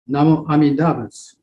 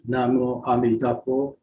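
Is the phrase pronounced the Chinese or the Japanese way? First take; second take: Japanese; Chinese. First: The phrase uses the Sino-Japanese pronunciation. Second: The phrase uses the Chinese pronunciation. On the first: "in a Sino-Japanese pronunciation" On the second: "In Chinese"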